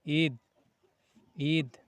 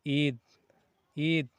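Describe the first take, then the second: The two takes are said the same way.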